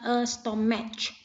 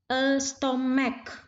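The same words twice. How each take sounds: First: The word ends with a hissing ch sound. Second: The word ends with a hard k sound. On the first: The speaker calls it wrong. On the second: The speaker calls it right. "diucapkan dengan huruf k"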